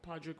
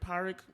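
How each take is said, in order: First: The name is said with a D sound. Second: The name is said without a D sound. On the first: The speaker calls it wrong. "what I call him" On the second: The speaker calls it right. "I don't think she ever really pronounced the the D"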